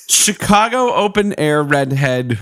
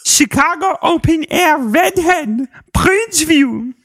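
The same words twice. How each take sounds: First: Said in the usual way. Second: Put-on high sing-song Dutch boy voice. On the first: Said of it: "Dutch boy voice". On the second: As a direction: read it as a silly Dutch boy. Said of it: "like, Dutch boy voice".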